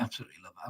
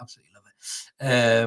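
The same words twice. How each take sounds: First: "Absolutely love it" dropped much softer under the breath; soft first take before the emphatic repeat; muttered aside. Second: Said in the usual way. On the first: Real, not acted. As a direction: murmur "Absolutely love it" to yourself. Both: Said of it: "you emphasize that point".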